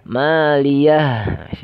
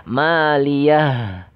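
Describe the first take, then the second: Both takes have the same delivery.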